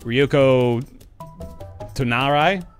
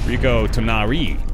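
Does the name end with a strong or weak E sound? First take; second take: weak; strong. First: The final vowel has little E sound. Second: The final vowel has a clear E sound. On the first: The speaker calls it wrong. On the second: The speaker calls it right.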